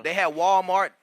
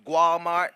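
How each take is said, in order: First: Said in the usual way. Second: Walmart said the Spanish way as "Gualmart"; Spanish-accented "Gualmart". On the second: Shown as a demonstration. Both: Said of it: "That's how they say it".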